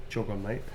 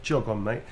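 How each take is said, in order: First: Quieter, brushing-off "Jog on, mate."; low-key "Jog on, mate." with rising end; softer dismissive "Jog on, mate.". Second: Said in the usual way. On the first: Shown as a demonstration. Demoing the phrase to chat, softer and dismissive. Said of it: "It's kind of fighting words". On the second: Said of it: "it's kind of like fighting words".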